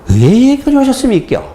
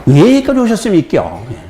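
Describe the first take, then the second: First: 경상도 억양으로 높게 묻기; Gyeongsang accent. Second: High Gyeongsang question through a laugh, falling on 여기까지; 웃으며 경상도 억양으로; Gyeongsang accent. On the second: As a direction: repeat the Gyeongsang line while chuckling. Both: Retold or imitated. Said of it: "경상도 어투가 근데 처음 접했기".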